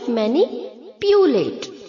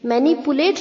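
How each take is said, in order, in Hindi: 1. p के बाद 'yoo' ध्वनि आती है। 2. p के बाद सामान्य 'oo' ध्वनि आती है। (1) "पी के आगे जो यू है उसे हम वाई डबल ओ की तरह प्रोनाउंस करेंगे" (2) "मैनिपुलेट नहीं होता है बच्चों"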